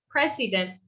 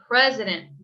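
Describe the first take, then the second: First: The middle vowel is a full, clear vowel. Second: The middle vowel is a weak uh sound. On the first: The speaker calls it wrong. "We don't want to say president" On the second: The speaker calls it right. "it's kind of an uh sound"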